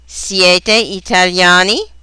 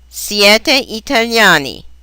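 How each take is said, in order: First: The ending has question intonation. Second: The ending has statement intonation. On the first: It asks whether the listeners are Italian. "is the question" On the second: It asserts that the listeners are Italian. "is the statement"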